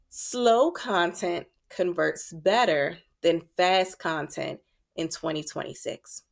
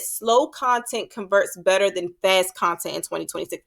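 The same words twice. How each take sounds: First: It is said slowly. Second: It is said fast.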